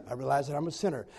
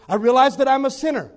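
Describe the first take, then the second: First: Softer, lower, faster timid repeat; quiet echo. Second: Louder, fervent prayer line said first; leading the prayer. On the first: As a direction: mumble it back after the leader. Man echoes prayer softly. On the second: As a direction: pray it out for him to repeat. Leading prayer, line then echo. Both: Retold or imitated.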